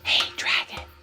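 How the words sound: It is whispered very softly.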